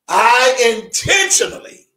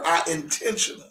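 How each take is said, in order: First: It is said with strong, forceful emphasis. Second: It is said with ordinary, light emphasis.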